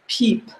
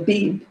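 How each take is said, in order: First: The word begins with a p sound. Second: The word begins with a b sound. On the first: The speaker calls it wrong. "the book itself gives for tobacco pipe, peep" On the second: The speaker calls it right. "you don't pronounce the p, you pronounce it as b"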